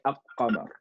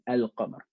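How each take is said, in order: First: The L is merged into a doubled Q. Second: The L is clearly pronounced before Q. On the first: The speaker calls it wrong. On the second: The speaker calls it right.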